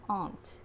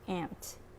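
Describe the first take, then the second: First: The vowel sounds like the one in father. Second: The vowel sounds like the one in cat. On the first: This is the East Coast pronunciation. "pronounced aunt on the East Coast" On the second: This is the California pronunciation. "pronounced ant in California"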